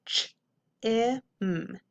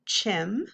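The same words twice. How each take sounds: First: "ch, I, m" as three separate sounds; short i, pauses round it, held m in "ch, I, m"; sounded out. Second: Said in the usual way. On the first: Shown as a demonstration. Teacher decoding first syllable for pupils, sounded out by sound. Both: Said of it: "let's look at our first syllable".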